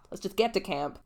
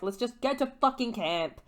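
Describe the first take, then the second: First: Said in the usual way. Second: Higher, irritated snap; the first, more heated take; annoyed Annabeth. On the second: Retold or imitated. Annabeth annoyed at Percy, heated snap. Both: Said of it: "she's like".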